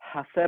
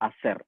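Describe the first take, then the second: First: The word begins with an h sound. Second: The word begins directly with a vowel. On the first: The speaker calls it wrong. "ഹസർ അല്ല" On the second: The speaker calls it right. "എച്ചിന് സ്പാനിഷിൽ സൗണ്ട് ഇല്ല"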